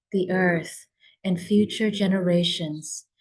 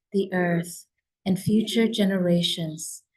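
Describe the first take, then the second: No difference in how they are said.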